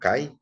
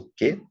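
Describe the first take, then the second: First: The word ends in an 'ai' diphthong. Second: The word ends in a plain 'e' vowel. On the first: This is the pronunciation many people know. "muitos conhecem como kai" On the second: This is the pronunciation used in this lesson. "a conjunção já conhecida nossa"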